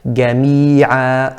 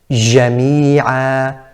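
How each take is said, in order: First: It starts with a hard g sound. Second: It starts with a soft j without full closure. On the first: "like a ga, ga, jami'a, and that's incorrect" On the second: "Incorrectly pronounced"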